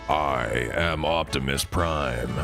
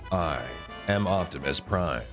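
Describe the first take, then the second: First: It is said in a strong, deep voice. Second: It is said in an ordinary speaking voice.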